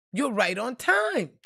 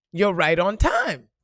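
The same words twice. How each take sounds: First: Slower, lifted repeat of the message. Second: Loud, slow imitation of an inner voice; insistent message. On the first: Retold or imitated. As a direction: repeat it slowly, raised from the first take. Same message repeated, higher. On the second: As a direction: push the message out slowly and loudly. Insistent message she kept hearing.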